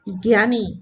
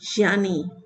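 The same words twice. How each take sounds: First: It starts with a g sound, gyaani. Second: It starts with a j sound, jyaani. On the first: The speaker calls it wrong. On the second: The speaker calls it right.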